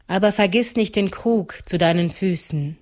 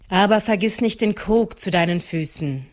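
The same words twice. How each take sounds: First: "vergiss" lifted and leaned on; stress on vergiss. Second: "nicht" lifted and leaned on, falling close; stress on nicht. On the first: The Trude warns Maren, weight on "vergiss". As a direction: hit "vergiss" in "Aber vergiss nicht". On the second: The Trude warns Maren, weight on "nicht". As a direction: hit "nicht" in "vergiss nicht". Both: Shown as a demonstration. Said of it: "repeated with new stress".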